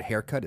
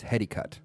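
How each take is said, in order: First: Said in the usual way. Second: "heady cut", haircut with Japanese sounds; Japanese pronunciation. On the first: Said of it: "the word haircut is heady cut". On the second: Shown as a demonstration. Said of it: "that's how it's pronounced".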